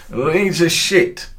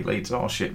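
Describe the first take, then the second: First: Put-on high, loud, drawn-out drunk jeer; retold drunk fan. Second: Said in the usual way. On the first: Drunk Hearts fan taunting a Leeds supporter, high and drawn out. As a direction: stretch it out like a loud drunk heckler. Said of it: "he said". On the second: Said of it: "And I sort of".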